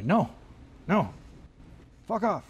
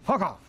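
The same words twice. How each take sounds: First: Curt dismissive no; rude brush-off. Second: Bad German accent, higher; a clumsy German accent. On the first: Pretend. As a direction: brush them off rudely. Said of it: "I'll be rude and just say". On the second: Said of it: "I'll do it in a German accent".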